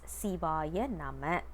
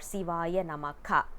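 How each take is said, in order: First: The last word ends plainly with no extra syllable. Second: The last word ends with an extra 'ka' syllable. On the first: It has the effect of a mantra. The speaker calls it right. "it must be said as Sivaya Nama" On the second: It sounds like calling someone's name, not a mantra. The speaker calls it wrong. "We are not supposed to uh, pronounce it as"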